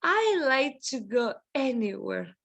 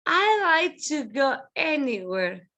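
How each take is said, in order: First: Said in the usual way. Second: "I like to go anywhere" called out; teacher model. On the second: Shown as a demonstration. Teacher models the sentence for students, called out. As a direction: call out "I like to go anywhere" with weight on "I".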